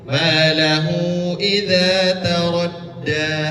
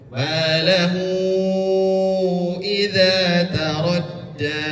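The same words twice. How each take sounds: First: The long vowel is held for two beats. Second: The long vowel is held for five beats.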